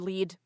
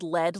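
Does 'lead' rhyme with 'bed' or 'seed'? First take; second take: seed; bed. First: The vowel is long, rhyming with seed. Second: The vowel is short, rhyming with bed. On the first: It names the action of guiding. The speaker calls it right. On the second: It names the metal. The speaker calls it wrong.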